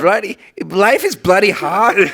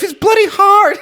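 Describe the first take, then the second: First: Slow, higher British accent; overdone British accent, drawn out; too British. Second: Very high, slow wail; hammed-up high whiny cry; whiny crier. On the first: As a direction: stretch it out in British tones. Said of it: "that's fucking too British". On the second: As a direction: shout it as a shrieking whine. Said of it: "go back to the whiny, crying". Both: Shown as a demonstration.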